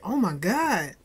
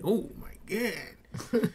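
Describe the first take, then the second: First: It sounds pleasantly impressed and delighted. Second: It sounds shocked and dismayed, in a bad way.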